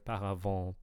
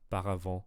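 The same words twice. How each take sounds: First: The vowels are drawn out and long. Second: The vowels are short and not drawn out. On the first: The speaker calls it wrong. "I'm hearing paravent" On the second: The speaker calls it right. "instead of paravent"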